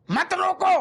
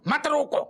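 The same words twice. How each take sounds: First: Much higher and louder cry of don't stop; shouted plea. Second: A raised, pleading don't stop me; raised plea. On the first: Patient crying out to the doctor, shouting. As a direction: belt it out like a desperate plea. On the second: Patient begging the doctor, raised voice. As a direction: call it out, pleading. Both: Acted.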